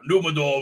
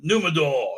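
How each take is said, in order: First: Numenor with an endlessly rolled final R; long rolled R. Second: Said in the usual way. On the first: Shown as a demonstration. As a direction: roll the R on the end of Numenor, on and on. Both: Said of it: "just like she has fifteen R's".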